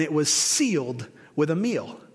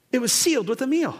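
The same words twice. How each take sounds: First: Said in the usual way. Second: "It was sealed with a meal" lifted high, then falling; emphatic repeat. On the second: Real, not acted. Preacher repeats the covenant point to the congregation, emphatic. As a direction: drive home "sealed with a meal" on a raised pitch.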